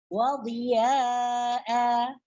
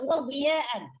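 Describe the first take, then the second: First: The word ends with a long vowel. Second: The word ends with an n sound. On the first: The reading stops at this word. "Apabila kita baca waqaf maka baca wadhiya'a" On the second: The reading continues without stopping. "Ini apabila kita baca wasal"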